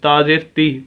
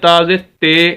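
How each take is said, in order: First: The final syllable has a pure 'ee' vowel. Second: The final syllable has an 'ay' vowel. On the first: The speaker calls it right. "सही तलफ़ुज़ इसका यही है" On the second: The speaker calls it wrong. "तो ये मजहूल पढ़ा जाएगा जो कि गलत है"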